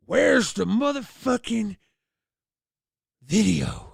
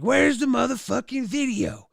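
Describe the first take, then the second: First: Slow, louder demand from a pissed dad; dad demanding the tape, fuming; mock furious dad, words dragged out; angry dad. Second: Higher, louder repeat of the demand; dad pressing harder, exasperated; hammed-up furious dad repeating himself; angry dad. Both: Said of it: "He was pissed".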